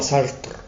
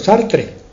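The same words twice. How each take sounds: First: The name is said with a French-style pronunciation. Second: The name is said with a Spanish pronunciation. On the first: "lo pronuncian así, con, como si fueran franceses" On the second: "Es decir en español"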